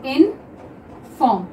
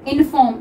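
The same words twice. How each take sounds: First: inform stretched out slowly; slow drawn-out reading. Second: Said in the usual way. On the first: Shown as a demonstration. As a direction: draw out inform for the class. (Inform को धीरे-धीरे) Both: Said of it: "एक है inform".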